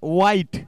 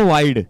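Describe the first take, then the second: First: The word ends with a t sound. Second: The word ends with a d sound. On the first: The speaker calls it wrong. "कुणी म्हणतं वाईट" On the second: The speaker calls it right. "असतो मात्र वाईड"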